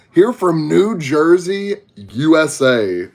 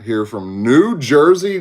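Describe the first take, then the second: First: Slow Texas drawl, stretched vowels; southern drawl. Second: Said in the usual way. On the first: Shown as a demonstration. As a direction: draw out each word like a Texan. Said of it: "As y'all can tell, I'm from Texas, Southern accent". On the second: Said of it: "As y'all can tell".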